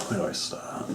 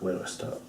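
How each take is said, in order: First: Soft voiceless murmur, falling away; whisper. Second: Whispered to himself. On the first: Vlogger murmuring before his wrestling recap. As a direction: whisper it, lost for a start. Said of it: "unvoiced fall". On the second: Wrestling vlogger whispering, unsure how to begin. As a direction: breathe the question out, voiceless. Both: Real, not acted.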